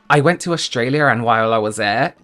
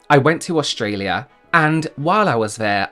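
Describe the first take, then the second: First: The words run together and link. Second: The words are said separately and carefully.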